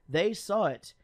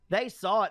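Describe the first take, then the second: First: It is read in the speaker's ordinary voice. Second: It is read in a put-on mother's voice.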